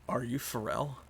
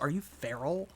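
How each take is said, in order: First: The name sounds like the words 'for real'. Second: The name sounds like the word 'feral'. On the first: It asks whether the person is genuine. "now that sounds like, are you for real?" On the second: It asks whether the person is wild. "when you say it that way, it's like, do you live in the woods?"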